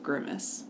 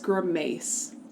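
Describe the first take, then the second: First: The word is pronounced the familiar way. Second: The word is pronounced in an odd way. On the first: The speaker calls it right. "instead of grimace" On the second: The speaker calls it wrong. "The audiobook narrator says grimace"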